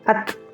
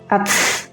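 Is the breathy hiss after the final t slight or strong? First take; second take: slight; strong. First: The final t has a slight airy hiss. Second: The final t has a strong hissing release. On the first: The speaker calls it right. "Jadi anginnya sedikit saja" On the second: The speaker calls it wrong. "Tapi jangan terlalu banyak seperti ats, ats. Jadi itu keliru"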